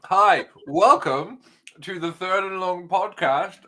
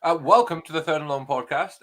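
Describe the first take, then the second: First: Podcast host intro. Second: Said in the usual way. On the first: Acted. Formal podcast intro, slowly drawn out. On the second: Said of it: "I've just been put on the spot".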